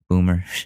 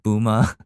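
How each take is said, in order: First: The final R sound is pronounced. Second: The final R sound is dropped.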